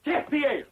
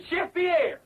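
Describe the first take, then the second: First: Put-on grand introduction in French accent, pitched up; fake French accent. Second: Put-on higher, more urgent call in French accent; insistent cue. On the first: Host introducing the chef, showy French accent. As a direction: present the star in mock French accent. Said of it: "I forgot my French accent". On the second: Host cueing an absent chef, insistent call. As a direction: call the missing chef on stage.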